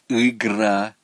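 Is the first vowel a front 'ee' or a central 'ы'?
central. The first vowel is a central 'ы' sound. "а у него выходит"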